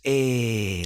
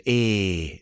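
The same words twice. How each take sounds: First: Higher Geordie "Eh," like Nan; a puzzled Geordie "Eh,"; Geordie accent. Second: Nan's Geordie "Eh", drawn out; a short Geordie grunt of "Eh"; Geordie accent. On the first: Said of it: "That's what she says". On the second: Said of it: "heavily Geordie accent. I can't do it". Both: Retold or imitated.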